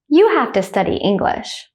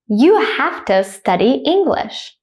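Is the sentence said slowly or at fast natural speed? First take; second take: fast; slow. First: The sentence is said fast and naturally. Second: The sentence is said slowly and carefully. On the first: "at a native speaker speed second" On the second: "I will say it slowly first"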